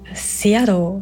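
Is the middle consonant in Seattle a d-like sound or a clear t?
d-like. It is said with a soft d-like sound.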